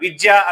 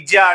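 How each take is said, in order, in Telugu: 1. ఈ పదం 'v' శబ్దంతో మొదలవుతుంది. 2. ఈ పదం అచ్చు శబ్దంతో మొదలవుతుంది. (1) "విద్య అన్నప్పుడు" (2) "వి అనే పదంని ఈగా ఉపయోగిస్తారు"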